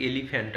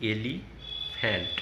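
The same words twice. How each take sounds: First: Said in the usual way. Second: Very slow, syllable by syllable; elephant said slowly as e-li-phant, pausing between syllables; broken into syllables. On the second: Shown as a demonstration. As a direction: spell out elephant slowly, each syllable apart. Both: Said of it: "এইভাবে ভেঙে ভেঙে".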